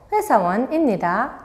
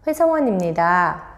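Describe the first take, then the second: First: It is spoken with a Myanmar accent. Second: It is spoken with a standard Korean accent. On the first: The speaker calls it wrong. "미얀마 액센트를 넣어서 말해요" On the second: The speaker calls it right. "라고 말을 해야 되는데"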